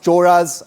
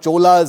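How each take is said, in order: First: The middle consonant is an R-like sound. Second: The middle consonant is a plain L sound. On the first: The speaker calls it right. "it's pronounced Choras" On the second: The speaker calls it wrong. "and not Cholas, as some people uh, continue to pronounce it"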